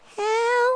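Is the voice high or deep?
high. It is said in a high falsetto.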